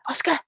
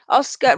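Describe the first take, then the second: First: It is called in a special coaxing voice. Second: It is called in a plain, normal voice.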